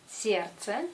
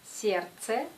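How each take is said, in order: No difference in how they are said.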